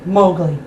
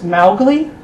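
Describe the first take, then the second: First: The first syllable rhymes with go. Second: The first syllable rhymes with cow. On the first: This is how most readers would sound it out. "I prefer the adopted pronunciation" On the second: This is how the author intended the name. "the O O W rhyming with cow"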